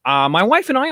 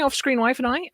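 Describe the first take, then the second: First: Said in the usual way. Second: Off-screen lifted with a rising tune; stress on off-screen. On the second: Shown as a demonstration. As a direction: hit off-screen, rising at the end.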